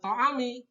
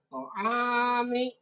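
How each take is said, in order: First: The vowel after the 'ain is short. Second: The vowel after the 'ain is long. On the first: The speaker calls it wrong. "jangan to'ami" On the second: The speaker calls it right. "tapi panjang to'ami"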